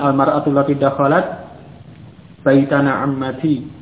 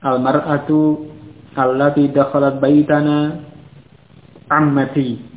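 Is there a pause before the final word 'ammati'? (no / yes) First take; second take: no; yes. First: It runs on without a pause before the last word. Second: There is a pause before the last word. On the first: The speaker calls it wrong. "Jangan membaca" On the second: The speaker calls it right. "Dijeda dulu, jadi bisa memahami sampai mana silah mausulnya"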